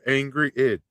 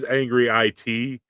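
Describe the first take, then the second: First: The last part is said as the word 'it'. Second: The last part is spelled out as letters. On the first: The phone's voice misreads the name. The speaker calls it wrong. "my voiceover thing says Angry It because it's stupid" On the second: This is how the name is written. The speaker calls it right. "it says Angry IT in my phone"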